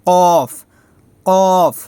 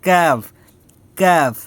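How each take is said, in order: First: কফ with lips rounded, louder and punched; round mouth. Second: কাফ with a wide, spread mouth, said loud; কাফ spoken loud with a broad open mouth, not rounded. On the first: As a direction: say কফ through a round mouth, firmly. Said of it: "মুখটা গোলাকার থাকবে". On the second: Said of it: "মুখটা আবার চওড়া". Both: Shown as a demonstration.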